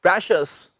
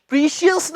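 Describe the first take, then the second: First: "प्रेशियस" as presh-us; short "e" in "प्रेशियस"; "प्रेशियस" in two syllables, presh-us; correct pronunciation. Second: "प्रीशियस" as pree-shi-us; long "ee" in "प्रीशियस"; "प्रीशियस" in three syllables; common mispronunciation. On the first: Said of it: "क्या कहनी आपने?". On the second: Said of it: "नहीं कहनी". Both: Shown as a demonstration.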